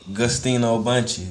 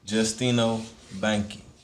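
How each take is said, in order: First: The first name starts with a G sound. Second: The first name starts with a J sound. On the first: This is how other people say it. The speaker calls it wrong. "but you'll hear people say" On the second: This is how the owner says it. The speaker calls it right. "You pronounce the name"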